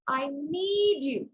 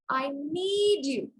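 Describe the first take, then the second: First: The stress falls on the word need. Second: The same.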